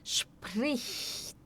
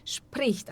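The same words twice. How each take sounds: First: "Spricht" hushed and slow, "shp-rich-t" with the soft ch. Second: "Spricht" quicker, a touch hushed, "shpricht"; faster spricht. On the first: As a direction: sound out "Spricht" slowly and softly. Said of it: "tentar bem devagar". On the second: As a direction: speed up "Spricht" once it flows. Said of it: "até vocês conseguirem acelerar". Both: Shown as a demonstration.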